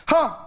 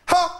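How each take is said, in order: First: One sharp high "Ha!"; a lone high laugh, held back; the first of two imitated laughs; first bark laugh. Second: Second "Ha!" pitched a touch higher; the second, raised imitated laugh. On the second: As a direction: lift the second laugh slightly. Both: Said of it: "he just raised it slightly".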